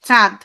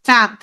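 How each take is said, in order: First: It is said with the nose pinched shut. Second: The same.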